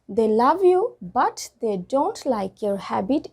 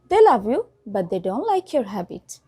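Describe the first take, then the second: First: The T sounds in but and don't are pronounced. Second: The T sounds in but and don't are dropped.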